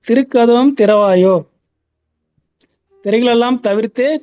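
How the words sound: There is a stop right after திறவாயோ. The door is opened first, then the screens are removed. The speaker calls it right. "திருக்கதவம் திறவாயோ நிப்பாட்டிட்டு"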